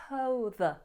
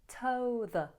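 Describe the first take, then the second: Both takes have the same delivery.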